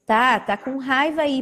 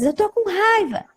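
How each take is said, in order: First: Said in the usual way. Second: Put-on high little-kid voice saying it's angry; high-pitched child admitting anger. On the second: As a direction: voice a sulky small child. Child answers the therapist.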